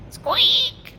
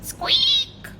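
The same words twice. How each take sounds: First: Tiny squeak, rising. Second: Tiny squeak, falling. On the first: Dragon squeaks again. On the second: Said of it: "heard a bone-chilling". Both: Acted.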